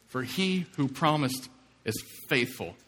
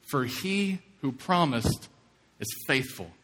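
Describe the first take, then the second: First: Said in the usual way. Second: For he who promised drawn out slowly, each word weighted; slow, weighty emphasis. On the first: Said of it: "preacher repeats the key verse". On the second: Shown as a demonstration. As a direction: lean on "he" and let "faithful" fall. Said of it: "preacher reads key verse slowly".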